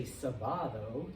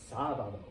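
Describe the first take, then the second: First: Sábado slowly as sa-BA-do; stress on BA. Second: Sábado as SÁ-ba-do, dropping after SÁ; stress on SÁ. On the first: Student noticing what wasn't said, sábado stressed on BA. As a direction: lean on the middle BA of sábado. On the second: Student noticing what was said, sábado stressed on SÁ. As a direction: stress the first syllable of sábado. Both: Shown as a demonstration. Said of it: "the stress isn't on where".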